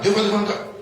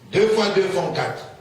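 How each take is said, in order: First: The phrase is said at a faster pace. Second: The phrase is said at a slower pace.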